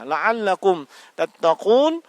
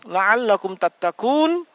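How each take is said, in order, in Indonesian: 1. Kata ini memakai bunyi q tenggorokan yang dalam. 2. Kata ini memakai bunyi k depan yang biasa. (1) "semoga engkau menjadi bertakwa" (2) "hasilnya apa? Semoga engkau disetrika"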